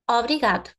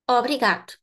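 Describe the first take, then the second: First: The first vowel is pronounced clearly. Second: The same.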